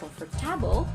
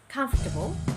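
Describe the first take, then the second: First: The stress is on the third syllable. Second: The stress is on the first syllable. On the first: The speaker calls it wrong. "not on the third" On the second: The speaker calls it right. "but rather you should say"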